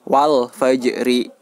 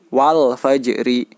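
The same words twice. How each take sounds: The two takes are said the same way.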